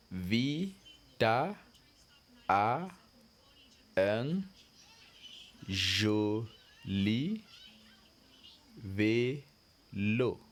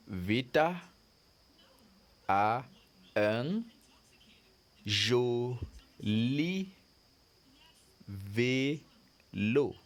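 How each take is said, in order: First: Vita a un joli vélo, each word split by a pause; word-by-word reading again. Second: Vita a un joli vélo, each word split by a pause; word-by-word reading. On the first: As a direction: repeat it word by word for the class. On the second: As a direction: read it to the class word by word. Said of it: "So look at it". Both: Shown as a demonstration.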